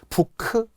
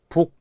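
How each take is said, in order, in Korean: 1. 두 음절로 발음해요, bu-keu. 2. 한 음절로 발음해요, buk. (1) "부크 이렇게 안 하잖아요" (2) "부크가 아니라 북"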